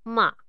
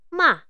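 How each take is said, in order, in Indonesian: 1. Diucapkan dengan nada ketiga. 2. Diucapkan dengan nada keempat. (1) "Bunyi ketiga" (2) "Dan bunyi keempat"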